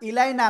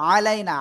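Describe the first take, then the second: First: The word begins with an 'i' vowel. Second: The word begins with an 'a' vowel. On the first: The speaker calls it wrong. "ইলাইনা না" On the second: The speaker calls it right. "কিন্তু আলাইনা, আইন সবর আ"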